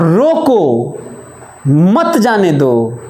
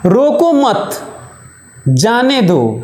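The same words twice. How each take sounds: First: The pause comes after रोको. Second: The pause comes after मत.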